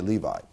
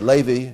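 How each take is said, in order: First: The name is pronounced with English pronunciation. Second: The name is pronounced with Hebrew pronunciation. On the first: "in English we say Levi" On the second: "In Hebrew we say Levi"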